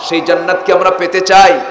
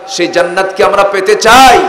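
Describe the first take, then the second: The two takes are said the same way.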